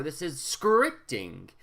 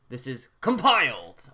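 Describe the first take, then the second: First: Scripting drawn out slowly; slow down and lean on scripting; stress on scripting. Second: Compiled said louder and leaned on; stress on compiled. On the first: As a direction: demo of emphasis, scripting stretched. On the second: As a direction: punch the word compiled. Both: Shown as a demonstration. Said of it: "I can emphasize".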